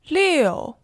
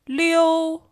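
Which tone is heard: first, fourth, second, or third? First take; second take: fourth; first. First: The pitch falls sharply from high. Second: The pitch stays high and level.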